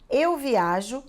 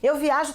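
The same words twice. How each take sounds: First: It is said at a normal, careful pace. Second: It is said at a very fast pace.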